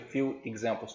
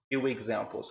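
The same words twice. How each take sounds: First: The words are said separately, without a glide. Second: The words are linked with a w glide. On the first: The speaker calls it wrong. "não fica few examples" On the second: The speaker calls it right. "fica few, few examples"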